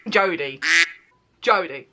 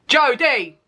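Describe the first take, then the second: First: Said in the usual way. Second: Exclaimed name. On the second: Shown as a demonstration.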